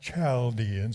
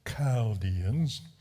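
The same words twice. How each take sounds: First: The word begins with a ch sound. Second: The word begins with a throaty guttural sound. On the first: The speaker calls it wrong. "notice it's not Chaldeans" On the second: The speaker calls it right. "That C H represents a guttural"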